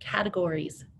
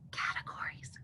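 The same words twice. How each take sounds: First: The word is spoken in a normal voice. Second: The word is spoken in a whisper. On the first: "Let's say it with me" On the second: "Let's whisper it"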